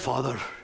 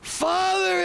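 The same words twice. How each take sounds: First: It is said softly and nicely, in a British accent. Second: It is screamed loudly, as if in agony. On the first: The speaker calls it wrong. "don't make it nice. Don't give it a British accent" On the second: The speaker calls it right. "he's screaming in agony"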